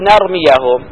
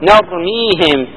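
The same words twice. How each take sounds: First: The verb has a short 'a' vowel after 'y'. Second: The verb has a long 'ee' with no 'a'. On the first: The verb is in the subjunctive (accusative) mood. "إذا كانت منصوبة نقول نرميهم" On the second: The verb is in the indicative (nominative) mood. "وإذا كانت مرفوعة نقول نرميهم"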